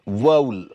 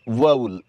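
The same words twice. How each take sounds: Both takes have the same delivery.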